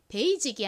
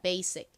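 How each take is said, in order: First: The middle consonant is a Z-like sound. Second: The middle consonant is an S sound. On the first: The speaker calls it wrong. "한국식으로는 여기 이 S를 지읒으로 읽어서 베이직" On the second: The speaker calls it right. "실제 원어 발음으로는요. 여기서 S가 지읒 발음이 아니라 시옷 소리가 나요"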